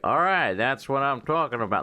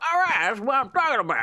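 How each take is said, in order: First: It is said flatly, with no emotion. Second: It is said with lively, excited emotion. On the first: The speaker calls it wrong. "There was like no emotion in his voice whatsoever" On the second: The speaker calls it right. "Instead of being like"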